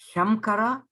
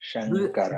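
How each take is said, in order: First: The nasal before k is an m sound. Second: The nasal before k is an n sound. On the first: The speaker calls it wrong. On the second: The speaker calls it right.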